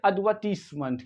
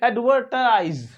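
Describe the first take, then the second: First: It is said in a non-American way. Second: It is said the American way, r pronounced.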